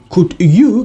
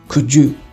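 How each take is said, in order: First: The d and y are said separately. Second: The d and y blend into j.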